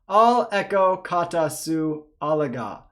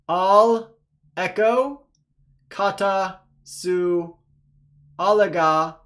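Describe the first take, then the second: First: The words are read at a faster pace. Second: The words are read at a slow pace. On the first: "a little bit faster" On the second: "let's go ahead and read slowly together"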